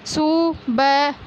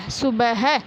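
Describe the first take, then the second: First: सुबह drawn out slowly, syllable by syllable; slow sounding out. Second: Said in the usual way. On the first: Shown as a demonstration. Teacher to pupils, stretching the word out slowly. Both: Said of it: "इस प्रकार पढ़ना है".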